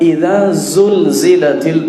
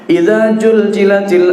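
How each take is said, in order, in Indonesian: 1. Konsonannya dilafalkan sebagai bunyi z. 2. Konsonannya dilafalkan sebagai bunyi j. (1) "Lalu saya bilang" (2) "karena memang tak bisa membaca zain"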